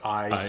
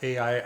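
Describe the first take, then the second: First: The name is said as one gliding syllable. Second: The name is said as two separate syllables. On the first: This is how the speaker himself says it. "I pronounce it I, because it's a sort of a diphthong" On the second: This is how some other people say it. "Some people pronounce it A I"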